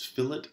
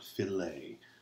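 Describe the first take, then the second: First: It is said as the drafting term. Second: It is said as the fish cut. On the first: It names a rounded corner in drawing. The speaker calls it right. "This is fillet" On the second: It names a cut of fish or meat. The speaker calls it wrong. "it is not fillet. Fillet is what you do with a fillet of fish"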